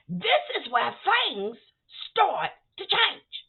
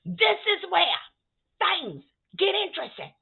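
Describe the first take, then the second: First: Slow, drawn-out build-up; slow teasing build to the twist; dramatic slowdown. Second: Said in the usual way. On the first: Real, not acted. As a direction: stretch it out for suspense.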